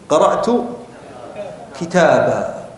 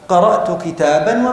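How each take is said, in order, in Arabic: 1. الكلمة الأخيرة تنتهي بألف ممدودة 'a'. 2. الكلمة الأخيرة تنتهي بصوت 'n'. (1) "لو وقفت هنا سأقول قرأت، لا قفوا" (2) "لو وصلنا قرأت كتابا وفهمته، ... الألف ما نطقتها"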